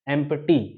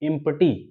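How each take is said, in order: First: The first vowel sounds like 'eh'. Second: The first vowel sounds like 'ee'. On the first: The speaker calls it right. "लेकिन इसको अ, हम पढ़ेंगे" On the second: The speaker calls it wrong. "बहुत से लोग इसको पढ़ते हैं इम्प्टी"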